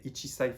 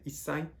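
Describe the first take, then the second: First: The number keeps its full two-syllable form. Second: The number shortens into a doubled s sound. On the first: The speaker calls it wrong. "you don't say ichisai for one year" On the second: The speaker calls it right. "you say issai"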